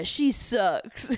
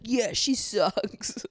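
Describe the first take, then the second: First: Mock Will. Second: Mock Will, slow and smug; slow mocking repeat. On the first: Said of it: "And Will's like". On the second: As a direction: drag it out slowly, mocking Will. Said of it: "not be like".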